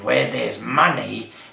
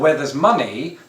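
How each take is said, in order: First: It is said in a put-on Cockney accent. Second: It is said in the speaker's normal accent.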